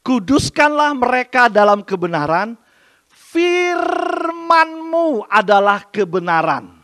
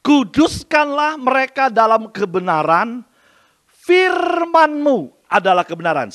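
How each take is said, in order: First: Louder, higher, very slow scripture proclamation; khotbah lantang. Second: Louder, slow solemn scripture reading; khotbah lantang. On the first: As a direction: stretch the verse out, proclaiming it. (ulangi ayat dengan lantang dan sangat lambat) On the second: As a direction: proclaim the verse slowly and loudly. (bacakan ayat dengan lantang dan khidmat) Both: Shown as a demonstration. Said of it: "Saya ulangi".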